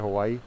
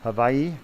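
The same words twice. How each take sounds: First: It is pronounced the way most mainland Americans say it. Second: It is pronounced the way native islanders say it. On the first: "the way most Americans say it" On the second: "That's how the islanders say it"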